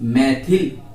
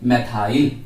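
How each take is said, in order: First: The last syllable has a short 'i' vowel. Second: The last syllable has a long 'ai' vowel. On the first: This is the everyday Hindi way of saying it. "मैथिल Hindi में बोल लेते हैं हम" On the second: This is how most people read it. "ज्यादातर लोग इसे क्या पढ़ते हैं, मैथाइल"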